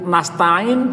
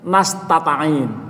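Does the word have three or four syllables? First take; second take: three; four. First: The word has three syllables. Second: The word has an extra syllable, four syllables. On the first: The speaker calls it right. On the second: The speaker calls it wrong.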